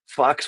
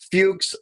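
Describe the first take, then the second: First: The vowel is said as a short uh. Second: The vowel is said as a long oo. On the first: "if you pronounce the U as an uh" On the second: "We used to call them fuchs"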